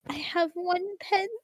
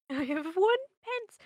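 First: High, slow pleading urchin; whimpering poor orphan; Victorian boy voice. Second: High, slow orphan plea; loud hammed-up beggar boy; Oliver Twist voice. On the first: Pretend. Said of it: "Victorian boy". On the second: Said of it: "Oliver's very good".

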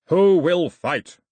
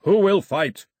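First: Slow, very loud challenge; long bellowed call for a challenger; drawn-out yell. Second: Loud, raised battle challenge; booming shouted demand; yelling. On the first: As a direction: yell it slowly, stretching each word. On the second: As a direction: yell for a challenger. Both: A narrator's reading. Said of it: "he yelled".

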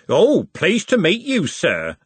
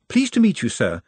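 First: Slow, high, drawn-out parody of politeness; mocking mimicry. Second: Eager, high-pitched polite greeting; polite Nutt. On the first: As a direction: mimic his greeting, louder and dragged out. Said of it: "Andy mimicked". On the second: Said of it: "said Nutt, extending a hand". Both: A narrator's reading.

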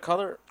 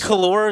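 First: Said in the usual way. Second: "color" with an OR ending; second syllable of "color" sounded as lor. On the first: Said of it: "instead of color". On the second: Shown as a demonstration. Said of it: "You say color instead of color?".

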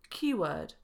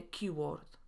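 First: Keyword with long neutral vowel, no r; long schwa in keyword. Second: Keyword with Polish o, r and final t; wrong o in keyword. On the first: Teacher showing how we say it, keyword with long schwa. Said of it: "Mówimy". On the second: Teacher showing the mistake, keyword with Polish o. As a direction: say keyword as spelt, softer, with short o. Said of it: "a nie". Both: Shown as a demonstration.

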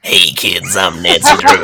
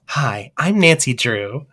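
First: Put-on low old-lady voice, laughing; old Nancy Drew. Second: Put-on soft, slow young woman's voice; young Nancy Drew. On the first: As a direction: croak it like an eighty-year-old lady. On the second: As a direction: say it gently like a young girl detective. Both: Shown as a demonstration. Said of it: "Which of these sounds more like Nancy Drew".

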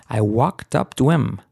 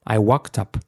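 First: I walked up to him, walked up run together as one; linked pronunciation. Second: I walked up, with walked and up run together; linked pronunciation. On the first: Teacher demonstrates linking for Spanish learners. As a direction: join walked up to him smoothly. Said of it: "Me como la H y junto la". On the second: Teacher shows Spanish students how to link the words. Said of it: "Fijaros, I walked up". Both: Shown as a demonstration.

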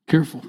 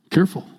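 No difference in how they are said.

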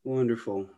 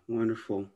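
The two takes are said the same way.

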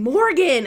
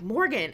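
First: Loud, raised shout of a name; retold group call. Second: Said in the usual way. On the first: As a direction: imitate everyone calling out to her. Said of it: "everybody started going". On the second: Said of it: "Jake's yelling at me".

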